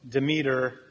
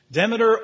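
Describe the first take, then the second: First: "Demeter" as duh-MEE-ter; second-syllable stress. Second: "Demeter" as DEM-uh-ter, punched louder; first-syllable stress. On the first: Preacher showing the other way, "Demeter" said duh-MEE-ter. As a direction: lean on a long ee in "Demeter". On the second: Preacher showing where emphasis falls, "Demeter" said DEM-uh-ter. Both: Shown as a demonstration. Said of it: "emphasis is on the first or last syllable".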